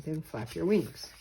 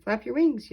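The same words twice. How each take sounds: First: Said in the usual way. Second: Loud, higher shout to Junior; yelling. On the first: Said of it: "he said". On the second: A narrator's reading. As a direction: call out urgently as he falls. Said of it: "yelled Mister Bird".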